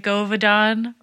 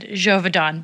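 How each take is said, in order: First: The name begins with a hard G sound. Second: The name begins with a soft J sound. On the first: "I would have gone for like the harder G" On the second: "the man said Jovedon"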